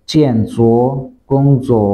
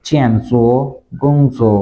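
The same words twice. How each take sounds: The two takes are said the same way.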